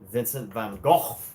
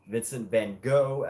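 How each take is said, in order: First: It is said the British way. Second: It is said the American way.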